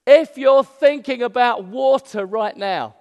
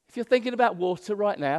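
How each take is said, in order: First: Loud, high, slow proclamation. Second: Said in the usual way. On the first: Acted. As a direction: proclaim it loudly and slowly to everyone. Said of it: "said in a loud voice". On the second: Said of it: "That's what he's saying".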